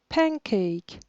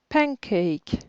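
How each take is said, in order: Both takes have the same delivery.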